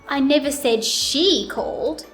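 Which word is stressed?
she. The stress falls on the word she. Somebody else called, not her. "Now let's put it on she"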